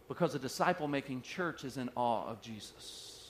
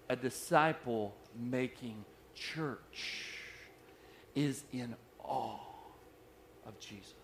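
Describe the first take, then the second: First: Said in the usual way. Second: Very slow and hushed, word by word; deliberately slow. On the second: Shown as a demonstration. Preacher repeats his key line so it sinks in, slowly. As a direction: draw out each phrase with long pauses between. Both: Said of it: "I'm gonna say that slow".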